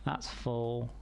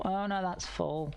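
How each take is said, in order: First: Said in the usual way. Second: Slow, high dismayed oh no; drawn-out surprised groan. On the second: Real, not acted. Sees the storage is full.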